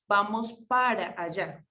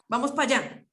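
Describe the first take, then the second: First: The word para is said in full. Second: The word para is shortened to pa. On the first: The speaker calls it right. "Se supone que uno debería decir vamos para allá" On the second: The speaker calls it wrong. "Ese pa no está bien dicho"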